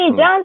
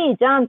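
First: The pitch rises at the end. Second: The pitch falls at the end.

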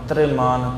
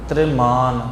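No difference in how they are said.

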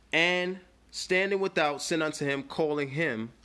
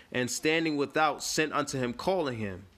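Both takes have the same delivery.

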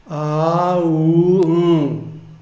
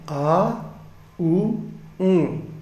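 First: Each sound is held long and drawn out. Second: Each sound is said short and quick.

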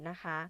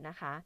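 Both takes have the same delivery.

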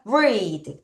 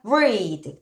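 First: The vowel is long, like in reed. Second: The same.

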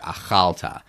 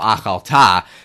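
First: The stress is on the middle syllable. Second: The stress is on the last syllable. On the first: The speaker calls it right. "With the accent on the middle the syllable there. ... That sounds much more natural" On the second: The speaker calls it wrong. "sounds like someone who doesn't know Hebrew very well and thinks that ... every accent is supposed to be on the last syllable"

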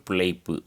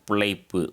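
Both takes have the same delivery.

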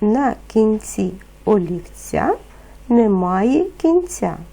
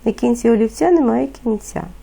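First: The phrase is spoken at a moderate pace. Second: The phrase is spoken at a very fast pace. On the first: "Повторюйте за мною" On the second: "Ще швидше"

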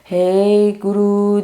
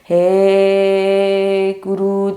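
First: The syllable 'he' is said short. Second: The syllable 'he' is drawn out long. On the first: The speaker calls it right. "he guru diye kısaca söyleyeceğiz" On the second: The speaker calls it wrong. "he'yi böyle uzun uzun he guru değil"

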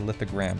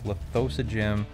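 First: The name is shorter and ends in 'gram'. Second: The name is longer and ends in 'gym'. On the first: This is the speaker's own habitual way of saying it. "but I always say Lithogram because that is better" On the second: This is how others say the name should go. "It's Lithosogym"

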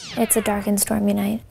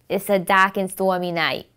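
First: It is said in a general American accent. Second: It is said in a Boston accent.

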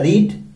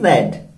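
First: The vowel is long, sounding like 'reed'. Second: The vowel is short, sounding like 'red'. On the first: It is the base form of the verb. "First form को आपको sound देना होता है रीड" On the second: It is the past form of the verb. "Second form को रेड"

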